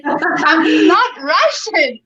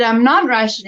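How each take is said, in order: First: "I'm not Russian" drawn out slowly, higher, with weight on "not"; slow firm denial. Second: Said in the usual way. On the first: Retold or imitated. Retelling her denial to the ayi at the rink, slow and emphatic. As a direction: spell out each word to end the argument. She's arguing with me.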